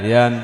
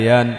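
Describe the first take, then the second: The two takes are said the same way.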